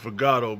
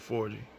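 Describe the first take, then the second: First: The middle is said with a hard 'gah' sound. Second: The middle is said with a 'gee' sound. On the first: This is the speaker's habitual pronunciation. The speaker calls it wrong. "I pronounce it Forgato" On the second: This is the correct pronunciation. The speaker calls it right. "but it's actually four G"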